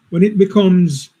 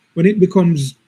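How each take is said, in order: Both takes have the same delivery.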